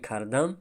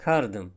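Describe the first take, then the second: First: Said in the usual way. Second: Кардым with an ы vowel in place of а; street pronunciation. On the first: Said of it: "Ба ҷои кардам". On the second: Shown as a demonstration. Teacher contrasts standard with colloquial кардым. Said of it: "мегӯем кардым".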